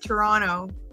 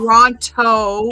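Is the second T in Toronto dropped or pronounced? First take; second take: dropped; pronounced. First: The second T is dropped, local style. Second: The second T is clearly pronounced.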